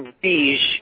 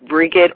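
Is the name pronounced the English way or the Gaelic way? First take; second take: Gaelic; English. First: The name is said with a Gaelic pronunciation. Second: The name is said with a plain English pronunciation.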